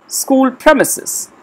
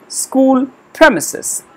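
Both takes have the same delivery.

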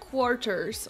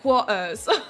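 First: It is said in a Slovak-learned English accent. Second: It is said in a British-sounding accent. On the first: "when I was learning English in Slovakia, we would say like quarters" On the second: "but I was like quarters"

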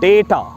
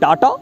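First: The first vowel sounds like 'ay'. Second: The first vowel sounds like 'ah'. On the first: The speaker calls it right. "The correct pronunciation of this word is data" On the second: The speaker calls it wrong. "It's wrong"

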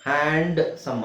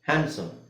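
First: The d is clearly sounded. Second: The d is left silent. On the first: The speaker calls it wrong. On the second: The speaker calls it right.

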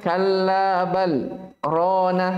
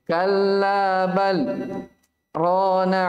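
First: Bal and rana run together without a pause. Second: A short pause comes between bal and rana. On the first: The speaker calls it wrong. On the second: The speaker calls it right.

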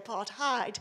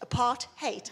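First: The last syllable does not sound like 'hate'. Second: The last syllable sounds like 'hate'. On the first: The speaker calls it wrong. "it really, really irritates me when people say apartheid" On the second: The speaker calls it right. "it's keeping people apart and it's hate. ... that's how you pronounce it"

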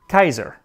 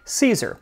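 First: It begins with a hard K sound. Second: It begins with a soft S sound. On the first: "that would make Caesar Kaiser" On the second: "with a soft C just like we say Caesar"

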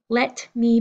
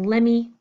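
First: The two words are said fully and separately. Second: The words blend into one reduced word. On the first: "Let me becoming lemme" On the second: "Let me becoming lemme"

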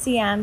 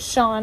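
First: The name is said as two syllables. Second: The name is said as one syllable. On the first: "in Singlish it's pronounced Sian" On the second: "I would pronounce it Sean"

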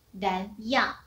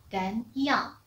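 No difference in how they are said.

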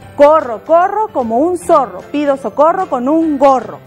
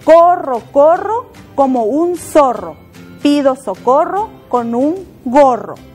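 First: It is said faster still. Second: It is said at a normal pace.

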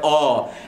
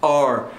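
First: It is said in a British accent. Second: It is said in an American accent. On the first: "if it is the British speaker, he would say are" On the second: "if it's the American speaker, he would say are"

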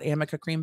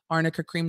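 First: The first word has an M instead. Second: The first word has an R and an N. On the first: The speaker calls it wrong. "not Amoca Cream" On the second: The speaker calls it right.

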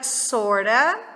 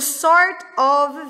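First: The words merge into one reduced word. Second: Both words are said fully and separately. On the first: "vira sorta" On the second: "O sort of vira sorta"

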